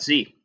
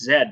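First: The letter is said as zee. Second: The letter is said as zed. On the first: This is not the Canadian way to say it. "not Z" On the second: This is the Canadian way to say it. "The letter Z is pronounced Zed"

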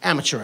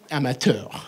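First: It is pronounced the usual English way. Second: It is pronounced the French-Canadian way.

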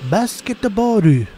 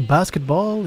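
First: It is said with extra vowels, Japanese style. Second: It is said with plain English pronunciation. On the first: "as if you were saying it in a racist Japanese accent" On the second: "If I want to say basketball"

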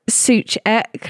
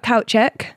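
First: The name begins with a 'sue' sound. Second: The name begins with a 'couch' sound. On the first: The speaker calls it wrong. "I thought it was like Suchek, like that" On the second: The speaker calls it right. "It's a play on like couch"

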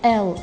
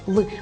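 First: It is said as the full letter name. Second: It is said as a short bare sound. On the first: The speaker calls it wrong. "не Л" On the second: The speaker calls it right. "озвучуємо її як звук"

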